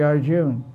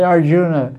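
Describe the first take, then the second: First: ARJUN ending on the N, no vowel after; silent final A. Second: ARJUNA said with the final A sounded; Western pronunciation. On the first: Teacher correcting Western speakers, ARJUN with silent final A. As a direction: say ARJUN with the last A dropped. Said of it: "but you don't pronounce it". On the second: Teacher quoting how Westerners say it, ARJUNA with audible final A. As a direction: say ARJUNA with an added A after the N. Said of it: "So Western will say Arjuna". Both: Shown as a demonstration.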